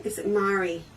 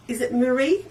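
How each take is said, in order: First: Mari said MAH-ree, falling and softer; trying the name Mari. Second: Marie said mer-EE with a rising check; trying the name Marie. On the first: Checking a viewer's name, Mari said MAH-ree. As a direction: try Mari with the stress up front. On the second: Asking a viewer whether her name is Marie. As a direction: ask if it is Marie, stress on the second syllable. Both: Shown as a demonstration.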